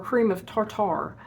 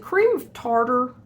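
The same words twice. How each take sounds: First: "tartar" said TAR-TAR, both syllables full; "tartar" with a crisp t and a full second TAR. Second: "tartar" as TAR-der with unstressed second syllable. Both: Shown as a demonstration. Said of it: "is it cream of tartar or cream of tartar".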